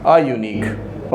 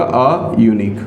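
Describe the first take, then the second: First: "आ unique" drawn out slowly, each sound held; slow demo. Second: Said in the usual way. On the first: Shown as a demonstration. Teacher to students, modelling the article, slowly. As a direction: stretch "आ unique" out for the class. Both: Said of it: "तो यहाँ लग जाएगा आ unique".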